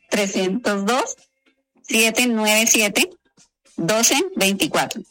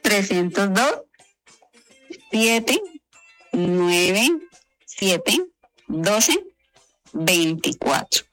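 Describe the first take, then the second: First: It is said at normal pace. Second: It is said slowly.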